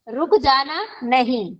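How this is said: The stress is on नहीं.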